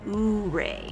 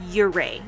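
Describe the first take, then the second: First: The name is said the way outsiders say it. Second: The name is said the way locals say it. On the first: The speaker calls it wrong. "not Ouray" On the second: The speaker calls it right. "it's pronounced Ouray"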